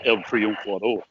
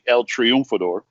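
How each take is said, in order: First: It is said in a Cuban Spanish accent. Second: It is said in a standard Spanish accent. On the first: "if you really want to say it like a Cuban person" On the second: "if you want to say it in the Spanish language"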